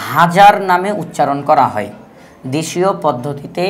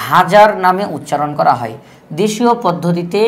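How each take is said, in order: Both takes have the same delivery.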